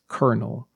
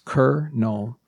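First: The word is said quickly as one unit. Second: The word is said slowly in separate parts.

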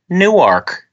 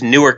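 First: It is said the way Delaware says it. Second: It is said the way New Jersey says it. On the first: It names the city in Delaware. "that same name is a city there" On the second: It names the New Jersey city and airport. "there's Newark Airport"

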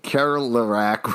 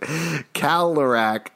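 First: The R in the first syllable is pronounced. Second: The R in the first syllable is dropped. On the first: This is the outsider's way of saying it. The speaker calls it wrong. "Alex just said Kerlerac" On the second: This is how locals say it. The speaker calls it right. "We actually pronounce it Kalerac"

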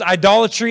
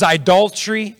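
First: Every syllable of the word is pronounced. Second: One syllable is dropped from the word. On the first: The speaker calls it right. "there's another syllable in there" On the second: The speaker calls it wrong. "I say that wrong"

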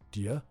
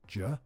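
First: The words blend into one syllable, 'dia'. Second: The words reduce further into one syllable, 'ja'. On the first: "Do you becomes dia" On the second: "or even ja"

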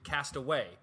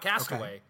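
First: It is said as two separate words. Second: It is said as one single word. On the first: It describes what has happened to him. The speaker calls it right. "It's two separate words" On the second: It names him as a castaway. The speaker calls it wrong.

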